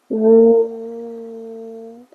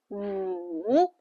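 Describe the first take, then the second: First: The pitch stays high and level. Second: The pitch dips low, then rises. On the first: "Everything is flat" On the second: "Life push you down, and you go up"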